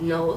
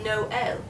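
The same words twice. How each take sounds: First: "no" as one-syllable NOLE; one sound. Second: "Noel" as NO-EL; two sounds. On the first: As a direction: run Noel together into "no" with an L. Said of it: "that being one sound". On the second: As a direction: give "Noel" two clear syllables. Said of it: "makes it stop and start". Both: Shown as a demonstration.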